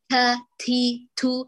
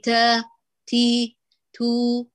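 First: The consonants are released with a strong burst. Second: The consonants are released with a soft breath. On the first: The speaker calls it wrong. "أو تقولي تا تي تو" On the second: The speaker calls it right. "لا قولي تا تي تو"

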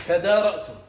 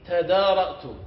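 The two takes are said the same way.

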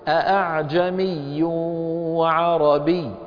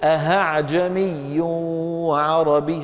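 First: The second glottal stop is fully closed. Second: The second glottal stop becomes an h sound. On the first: "الخطأ الأول أن يحققها" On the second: "والخطأ الثاني أن يقلبها هاء"

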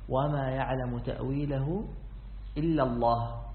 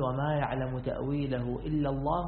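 First: The reciter stops fully after the final word. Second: The reciter runs on into the next phrase. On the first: Only God knows its interpretation. "فتقف هنا" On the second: Those firm in knowledge also know its interpretation. "فإننا نصب فنقول"

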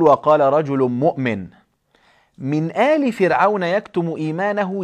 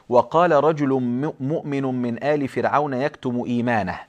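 First: The pause falls after the word 'مؤمن'. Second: The pause falls after the word 'فرعون'. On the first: The believing man hid his faith from Pharaoh's family. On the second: The believing man belonged to Pharaoh's family.

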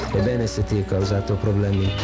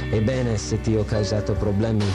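No difference in how they are said.

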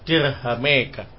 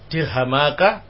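First: The long vowel is leaned toward e. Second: The long vowel is a plain open a.

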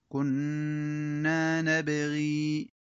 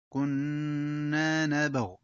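First: The last word ends in a long i vowel. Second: The last word stops short on the consonant.

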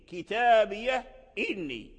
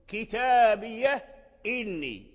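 No difference in how they are said.

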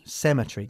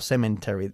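First: No n sound is heard in the middle. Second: An extra n sound is heard in the middle. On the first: The speaker calls it right. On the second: The speaker calls it wrong. "no se dice cemetery o cemetery. No hay N en la palabra cemetery"

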